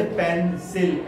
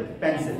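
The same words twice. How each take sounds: First: pencil broken slowly into पें-सिल; split syllables. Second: Said in the usual way. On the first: Shown as a demonstration. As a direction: say pencil with a gap between syllables. (Pencil को पें और सिल में तोड़कर, धीरे) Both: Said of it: "ऐसे नहीं बोलते पेंसिल".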